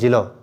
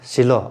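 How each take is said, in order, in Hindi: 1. शब्द j ध्वनि से शुरू होता है। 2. शब्द s ध्वनि से शुरू होता है। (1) "जिलो बोलेगा" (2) "ये च स जैसे कि सिलो या सेलू"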